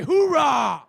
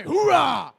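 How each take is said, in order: First: Louder call for a cheer; crowd hype shout. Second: Loud high call for cheers; crowd hype shout. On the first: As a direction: demand a bigger cheer. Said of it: "that was weak". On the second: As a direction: pump up the crowd. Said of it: "let me hear you say". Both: Real, not acted.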